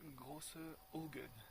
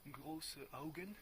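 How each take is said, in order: First: It is pronounced the French way. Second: It is pronounced the German way. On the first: The speaker calls it wrong. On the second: The speaker calls it right.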